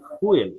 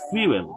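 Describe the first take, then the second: First: The f goes straight into an oo vowel. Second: The f is followed by a 'y' glide. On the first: The speaker calls it wrong. "আমরা সবাই অনেকেই ভুল উচ্চারণ করি" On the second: The speaker calls it right. "এটা উচ্চারণ কি?"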